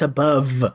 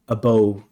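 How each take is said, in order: First: The word ends with a v sound. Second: The word ends with a b sound. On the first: The speaker calls it right. "it's above" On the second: The speaker calls it wrong. "a bow instead of above"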